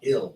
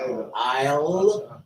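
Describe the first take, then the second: First: The vowel is short, like in 'ill'. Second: The vowel is long, like in 'isle'. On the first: The speaker calls it wrong. "What the hell is ill?" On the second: The speaker calls it right. "put "isle" up there so people understand how you're supposed to"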